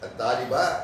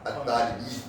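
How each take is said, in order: First: The word ends in an a vowel. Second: The word ends in an i vowel. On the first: "பா சொல்லலாம்" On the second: "பீ சொல்லலாம்"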